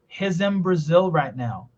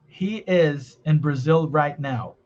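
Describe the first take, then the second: First: He's in is linked smoothly together. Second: He is in is said separately. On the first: "Olha o in transformando em am" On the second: "Como é que você fala?"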